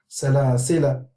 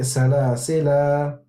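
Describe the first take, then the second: First: The final vowel is short. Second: The final vowel is held long. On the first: The reader continues to the next word. "if we are continuing, we won't say salasila, we would say" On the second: The reader stops on this word. "if we are reading and we stop on this letter, then we would say"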